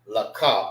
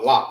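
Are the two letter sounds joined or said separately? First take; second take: separately; joined. First: Each letter is said as its own syllable. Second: The sounds are merged into one short syllable. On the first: The letters are not connected. "you pronounce it by itself" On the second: The letters are connected. "that symbolize you need to say it together"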